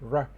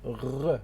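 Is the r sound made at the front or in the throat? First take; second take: front; throat. First: The r is made with the tongue near the front. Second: The r is rasped far back in the throat. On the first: "the English R will be r r. It's way further in the front" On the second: "the French sound will be r. It's coming from the uvula"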